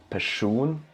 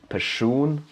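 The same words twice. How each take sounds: No difference in how they are said.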